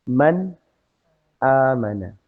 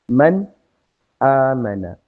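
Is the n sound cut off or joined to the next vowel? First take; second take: cut off; cut off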